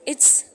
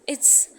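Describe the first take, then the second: The two takes are said the same way.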